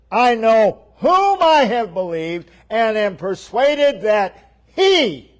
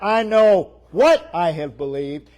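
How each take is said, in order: First: "whom" lifted high and loud, fuller preaching voice; stress on whom. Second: "what" pushed up and pressed as the mistaken word; stress on what. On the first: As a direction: ring out "whom" in "I know whom I have believed" as the correction. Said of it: "he goes back to whom". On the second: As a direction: lean on "what" in "I know what I have believed". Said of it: "It's not". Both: Shown as a demonstration.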